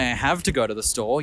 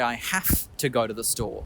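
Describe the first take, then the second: First: The word have is said with a V sound. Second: The word have is said with an F sound. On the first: The speaker calls it wrong. "You don't say" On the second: The speaker calls it right. "you say ... Not with a V, but with a F"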